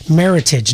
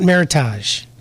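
First: The ending rhymes with the word heritage. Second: The ending does not rhyme with heritage. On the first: The speaker calls it right. "merit and heritage. Meritage" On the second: The speaker calls it wrong. "not Meritage"

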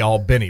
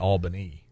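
First: It is pronounced the way locals say it. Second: It is pronounced the way outsiders say it. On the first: This is how people there say the name. The speaker calls it right. "They say Albany" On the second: People there do not say the name this way. The speaker calls it wrong. "They don't say Albany"

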